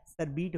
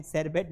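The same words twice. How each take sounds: First: शरबीट ending on a long "beet"; correct pronunciation. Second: शरबत said English-style as "sher-bet"; wrong pronunciation. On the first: Teacher correcting the drink's name, शरबीट with "beet". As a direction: say शरबीट slowly as "shar-beet". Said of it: "शरबीट होता है". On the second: Teacher showing the mistake, शरबत as "sherbet". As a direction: end शरबत on a short "bet". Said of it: "शरबत नहीं होता है". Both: Shown as a demonstration.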